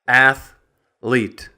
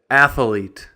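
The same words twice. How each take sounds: First: It is said with two syllables. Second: An extra vowel makes it three syllables. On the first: The speaker calls it right. "It's a two-syllable word" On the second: The speaker calls it wrong. "sometimes you'll hear people say"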